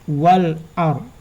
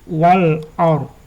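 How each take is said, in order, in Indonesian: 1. Bunyi l jelas diucapkan. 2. Bunyi l jelas diucapkan.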